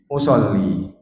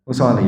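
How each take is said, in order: First: The l sound is held long and doubled. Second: The l sound is short and single. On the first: The speaker calls it right. "Tapi ra'aitumuni usolli" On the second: The speaker calls it wrong. "Bukan bunyi usol, usoli, bukan"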